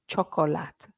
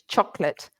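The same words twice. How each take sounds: First: The word is said with three syllables. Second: The word is said with two syllables. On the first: The speaker calls it wrong. "None of this chocolate. No" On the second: The speaker calls it right. "two syllables"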